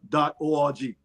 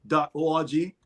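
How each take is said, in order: Both takes have the same delivery.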